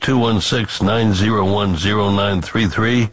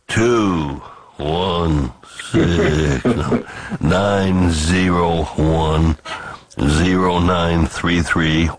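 First: The number is read at normal speed. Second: The number is read slowly.

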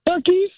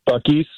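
First: It is said imitating his wife's voice. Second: It is said in his ordinary own voice.

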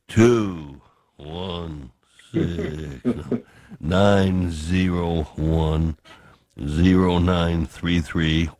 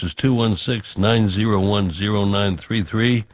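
First: The number is read slowly. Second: The number is read at a normal pace.

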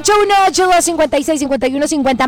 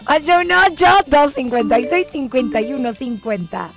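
First: The number is rattled off very fast. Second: The number is said more slowly.

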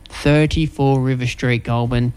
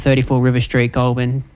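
First: It is said slowly. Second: It is said at normal speed.

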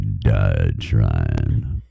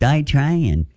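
First: It is said in a deep, raspy voice. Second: It is said in a normal voice.

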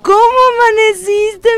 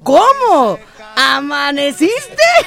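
First: It is said smoothly and sweetly, without a break. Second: It is split in two, with a pause after cómo.

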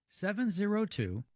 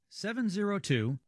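The two takes are said the same way.

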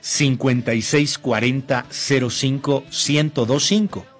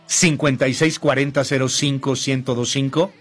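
First: The number is said more slowly. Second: The number is said at normal speed.

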